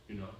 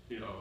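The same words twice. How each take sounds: Both takes have the same delivery.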